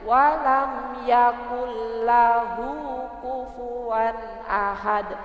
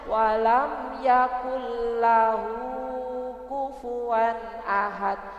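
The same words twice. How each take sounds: First: The final vowel of lahu is short. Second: The final vowel of lahu is drawn out. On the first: The speaker calls it right. "lahu dibaca pendek" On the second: The speaker calls it wrong. "itu masih belum tep tepat"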